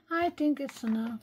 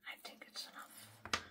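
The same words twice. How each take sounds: First: Said in the usual way. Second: Hushed, unvoiced whisper; very soft self-directed whisper. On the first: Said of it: "instead of telling you". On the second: Real, not acted. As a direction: whisper it under your breath, as if thinking aloud. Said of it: "That's why I'm whispering".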